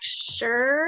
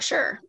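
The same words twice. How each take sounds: First: It sounds unsure and hesitant. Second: It sounds quick and confident.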